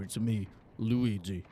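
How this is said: The voice sounds weary and jaded.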